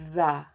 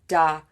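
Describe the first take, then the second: First: The word starts with a voiced th sound. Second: The word starts with a d sound. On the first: The speaker calls it right. "You can say the" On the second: The speaker calls it wrong. "People are saying da"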